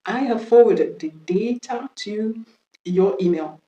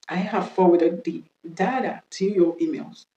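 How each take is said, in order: First: DATA said "DAY-tuh" in the sentence; British-style DATA, "DAY-ta". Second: DATA said "DA-duh" in the sentence; American-style DATA, "dah-da". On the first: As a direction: say DATA with a "day" first syllable. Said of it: "c'est la prononciation british". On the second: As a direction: say DATA with an "ah" first syllable. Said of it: "c'est la prononciation américaine". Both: Shown as a demonstration.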